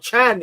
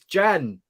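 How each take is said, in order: First: The name begins with a ch sound. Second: The name begins with a j sound. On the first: The speaker calls it wrong. "It's not Chan" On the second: The speaker calls it right. "it's Jan"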